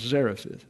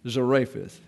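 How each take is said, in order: First: The stress is on the first syllable. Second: The stress is on the second syllable. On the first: The speaker calls it right. "I put the accent on the A" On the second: The speaker calls it wrong. "for years I pronounced that as Zarephath, and it's not"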